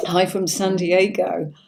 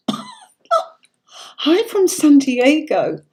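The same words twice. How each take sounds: First: Said in the usual way. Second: High, slow and laughing, much louder; a delighted, drawn-out hello read from the chat; gleeful read-out. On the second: Real, not acted. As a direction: savour the viewer's greeting with a laugh. Reading a viewer's comment aloud.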